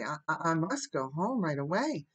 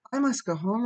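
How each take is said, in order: First: Halting, stammered start, queasy; a little thickly. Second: Higher, louder insistence; dazed but determined. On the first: Sick guest excusing herself to Anne, a little thickly. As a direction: stumble into it as if sick. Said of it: "she said, a little thickly". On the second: Sick Diana insisting to Anne, dazed but determined. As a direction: repeat it doggedly, in a daze. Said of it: "repeated Diana stupidly but determinedly". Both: A narrator's reading.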